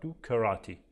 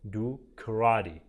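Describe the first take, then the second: First: The t between vowels is a clear t. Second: The t between vowels sounds like a d. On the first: "اون هم میشه" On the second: "شبیه د تلفظ میشه"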